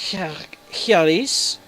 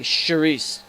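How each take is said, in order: First: The name begins with a German 'ch' sound. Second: The name begins with a French 'sh' sound. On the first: "in the German, would you pronounce this Chiaris? You know, because the C H is a sound?" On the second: "Or would you just say Cherise, like French?"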